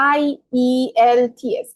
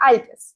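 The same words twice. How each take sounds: First: "আই ই এল টি এস" as separate letters, slow with gaps; spelled letter by letter. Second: "আইএলটিএস" run together as a single word; said as one word. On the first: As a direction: spell out each letter, pausing between them. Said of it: "কি হলো? আইএলটিএস". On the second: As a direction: read the acronym as a word, "আইএলটিএস", without spelling it. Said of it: "কি হলো?". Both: Shown as a demonstration.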